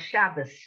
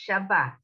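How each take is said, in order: First: The word ends with an s sound. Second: The word ends with a t sound. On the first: "this is going to have an S sound" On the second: This is the standard Hebrew form. "these are all pronounced T for our purposes"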